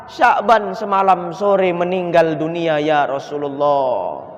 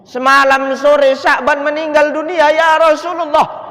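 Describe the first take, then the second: First: Grieving widow. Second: High, loud grieving wail; anguished cry. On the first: Widow tells of husband's death. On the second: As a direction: cry the news out to the Prophet. Widow repeats the death news. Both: Acted.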